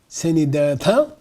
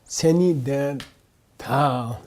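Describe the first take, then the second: First: The voice rises on the final word. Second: The voice falls on the final word. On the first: It affirms that the definition is correct. "If you go up" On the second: It sarcastically challenges the other's definition. "if your voice goes down"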